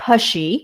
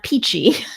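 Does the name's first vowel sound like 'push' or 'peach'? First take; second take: push; peach. First: The first vowel sounds like in push. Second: The first vowel sounds like in peach. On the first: The speaker calls it right. "correctly pronounced as Pushy" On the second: The speaker calls it wrong. "not Peachy"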